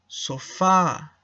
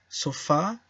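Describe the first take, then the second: First: The word is said at a slower pace. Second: The word is said at a faster pace.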